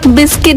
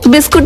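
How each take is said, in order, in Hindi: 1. दूसरे अक्षर में 'i' स्वर है। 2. दूसरे अक्षर में 'oo' स्वर है। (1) "बिस्किट होता है" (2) "बिस्कुट नहीं होता है"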